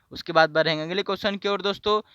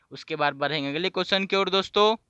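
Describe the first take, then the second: No difference in how they are said.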